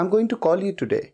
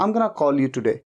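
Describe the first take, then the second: First: Going to is said in full. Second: Going to is reduced to gonna. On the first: "going to" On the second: "going to की जगह पे gonna कहना conversation में बड़ा common है"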